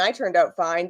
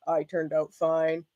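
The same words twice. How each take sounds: First: Said in the usual way. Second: Slow, low-key, sceptical echo; self-mocking. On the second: Mocking their own claim after calling it a lie, self-mocking. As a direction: repeat it slowly, softer, disbelieving yourself.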